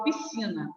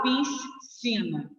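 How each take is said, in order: First: Said in the usual way. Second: "piscina" broken after a lingering S, slowly; wrong pronunciation. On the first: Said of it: "eu falo piscina". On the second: Shown as a demonstration. Teacher showing students how it isn't said, "piscina" with S and C both sounded. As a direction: say "piscina" with the S sounded apart, "pis-cina". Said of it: "Eu não falo piscina".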